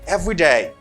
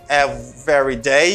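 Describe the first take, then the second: First: The middle syllable of every is dropped. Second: The middle syllable of every is pronounced. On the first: The speaker calls it right. "you say every day" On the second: The speaker calls it wrong. "You do not say every day"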